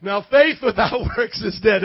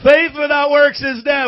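First: Laughing at his own slip; a laugh breaking the line; flubbed line. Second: High, loud corrected line; corrected shout. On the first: Real, not acted. Pastor laughing after garbling the verse. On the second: Shown as a demonstration. Pastor shouting the verse right after a slip. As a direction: nail it this time, full voice. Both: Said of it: "I messed it up".

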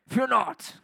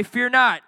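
First: A hint of a tough old Thor accent; mock Thor voice. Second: Fear not called out loud; rally the crowd with it. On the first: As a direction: play the god of thunder, lightly. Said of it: "one of those tough old accents". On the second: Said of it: "everybody say". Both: Shown as a demonstration.

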